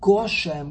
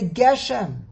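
First: The first vowel is an 'o' sound. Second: The first vowel is an 'e' sound. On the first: Only a small amount of rain, a stingy amount. The speaker calls it wrong. "Why would you want to say Goshem with a komatz" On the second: Rain as a blessing, something special. The speaker calls it right. "Better say Geshem, because a segol"

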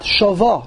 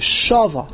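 First: The stress is on the last syllable. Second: The stress is on the first syllable. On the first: The speaker calls it wrong. "and not shava" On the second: The speaker calls it right. "mil'el means that the accent is on the shin"

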